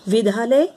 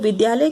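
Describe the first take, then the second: First: The middle consonant is a breathy dh. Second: The middle consonant is a plain d. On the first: The speaker calls it wrong. "विद्यालय का प्रयोग करते हैं" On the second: The speaker calls it right. "विद्यालय के स्थान पर"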